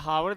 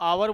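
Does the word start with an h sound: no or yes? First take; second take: yes; no. First: The word starts with an h sound. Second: The word starts with a vowel, no h. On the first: The speaker calls it wrong. "हावर नहीं बोलते इसको" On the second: The speaker calls it right. "आवर बोलते हैं"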